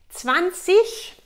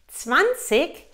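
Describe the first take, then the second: First: It is said with a regional Saxon pronunciation. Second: It is said with a southern German pronunciation. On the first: The speaker calls it wrong. "sehr regional" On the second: The speaker calls it right. "auch sehr gutes Deutsch"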